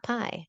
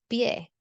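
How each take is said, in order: First: Pie said like the English word pie, one vowel glide. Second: Pie said pyeh, Spanish pie with a clear e at the end. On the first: Teacher shows students the wrong English pie. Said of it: "It's not pie". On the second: Teacher gives students the correct Spanish pie. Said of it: "It's pie". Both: Shown as a demonstration.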